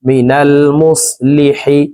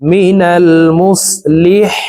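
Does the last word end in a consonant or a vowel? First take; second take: vowel; consonant. First: The last word ends with an i vowel. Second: The last word ends on a bare h consonant.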